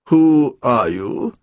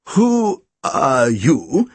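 First: Low, very slow demand; drawn-out, low-pitched challenge. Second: Very slow, wavering question; faltering, drawn-out challenge; quavering. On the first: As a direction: demand it slowly in a lowered voice. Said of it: "he demanded at last". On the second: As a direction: quaver it out, stretching every word. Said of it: "he quavered". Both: A narrator's reading.

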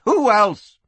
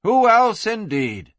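First: High, loud exasperated retort; crying out. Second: High start, dropping on "indeed"; knowing echo. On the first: Acted. Madam answers while rushing downstairs, crying out. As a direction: toss it back loudly in Kitty's voice. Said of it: "Kitty cried, rushing for the stairs". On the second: A narrator's reading. Narrator echoes the madam to the listener, knowing echo.

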